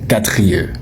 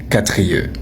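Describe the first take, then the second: No difference in how they are said.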